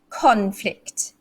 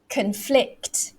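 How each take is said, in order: First: The stress is on the first syllable. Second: The stress is on the second syllable. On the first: It is used as a noun. "If it's a noun, it's conflict. So I made the stress on the con" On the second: It is used as a verb. "when it's a verb... The second syllable. So it's like this"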